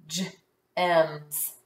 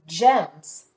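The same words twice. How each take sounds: First: "gems" split into soft g, then the rest; "gems" pulled apart slowly, j then ems; sounded out. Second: Said in the usual way. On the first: Shown as a demonstration. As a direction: pause after the first sound of "gems". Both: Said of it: "Let's sound it out".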